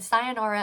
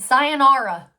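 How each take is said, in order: First: Said in the usual way. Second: Sayonara called out loud with a falling finish. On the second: Retold or imitated. Saying goodbye to her brother, loud sayonara. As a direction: belt out Sayonara as a parting shot. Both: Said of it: "I said".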